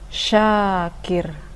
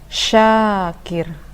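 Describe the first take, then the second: Both takes have the same delivery.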